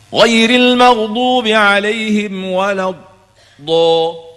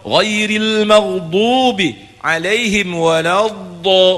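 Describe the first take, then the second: First: The dad sound is cut off abruptly. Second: The dad sound flows on without a break.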